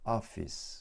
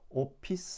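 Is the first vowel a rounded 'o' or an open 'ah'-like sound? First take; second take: ah-like; rounded o. First: The first vowel is open, between 'o' and 'ah'. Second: The first vowel is a rounded Korean 'o'. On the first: The speaker calls it right. "오하고 아 중간 발음해서 앞, 맨 앞부분에 힘주고 강세를 줘서" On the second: The speaker calls it wrong. "오피스 하지 마시고"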